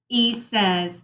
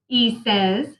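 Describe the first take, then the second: Both takes have the same delivery.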